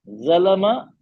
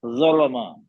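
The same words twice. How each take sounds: First: ज़लमा with a thin light ज़, said like ज़ाल; ज़लमा with the ज़ kept light and thin, rising at the end; wrong light ज़लमा. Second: ज़लमा with a heavy, full ज़ौ that sounds like zo; ज़लमा with a thick, rounded ज़ौ and a long falling end; correct heavy ज़लमा. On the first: Teacher repeating the wrong take for students: ज़लमा with a light ज़. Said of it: "दूसरा सही है?". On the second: Teacher repeating the right take for students: ज़लमा with a heavy ज़ौ. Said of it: "दूसरा सही है।". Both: Shown as a demonstration.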